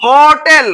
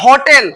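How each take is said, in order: First: হোটেল louder, the first syllable "ho" held long; হোটেল loud and drawn out, ho then tel; sounding out. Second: Said in the usual way. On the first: Shown as a demonstration. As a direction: stretch the "ho" of হোটেল for learners. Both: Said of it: "কি উচ্চারণ হচ্ছে?".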